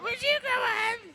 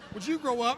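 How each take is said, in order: First: It is said in a whiny mocking voice. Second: It is said in a plain voice.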